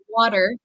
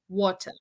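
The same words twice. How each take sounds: First: The t sounds like a soft d. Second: The t is a crisp, sharp t. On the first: "I say water" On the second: "British English would be more like water"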